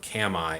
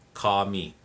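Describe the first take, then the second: First: The vowels are not 'ah' and 'ee'. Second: The vowels are 'ah' then 'ee'. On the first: The speaker calls it wrong. "or kami" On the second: The speaker calls it right. "it's kami ... the A is always going to be like ah, and the I is E"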